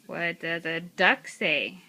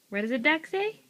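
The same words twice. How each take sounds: First: Said in the usual way. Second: What does a duck say asked higher with a rising end; higher asking. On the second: Real, not acted.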